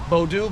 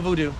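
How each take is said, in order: First: The first vowel sounds like 'oh'. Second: The first vowel sounds like 'oo'. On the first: The practitioners' own name for the religion. The speaker calls it right. "V O D O U" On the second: Outsiders misheard and changed the name. The speaker calls it wrong. "no voodoo"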